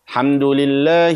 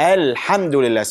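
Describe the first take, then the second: First: The opening 'al' sound is left out. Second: The opening 'al' sound is clearly pronounced. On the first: The speaker calls it wrong. "They drop the alif wa lam in the beginning" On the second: The speaker calls it right. "So there is an alif and lam in the beginning"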